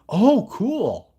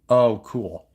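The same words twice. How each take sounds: First: It is said in a sincere tone. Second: It is said in a sarcastic tone. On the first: The speaker calls it right. "Look something like that. There we go" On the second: The speaker calls it wrong. "I phrased that like that's sarcastic"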